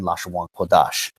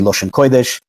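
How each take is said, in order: First: It is said with the One West community's pronunciation. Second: It is said with an Ashkenazi Yiddish-style pronunciation. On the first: This is how the One West community says it. "One Westers started saying Lashon Kodash"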